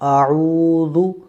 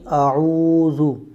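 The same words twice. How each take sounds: No difference in how they are said.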